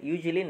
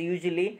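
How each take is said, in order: Both takes have the same delivery.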